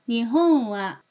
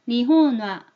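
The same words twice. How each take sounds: First: The n glides nasally into wa. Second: The n is a full n sound before wa. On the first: The speaker calls it right. "흘려보내는 이응 발음을 해야 됩니다" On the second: The speaker calls it wrong. "니혼이라고만 생각을 하기 때문에 니혼와 이런 식으로 발음을 한다"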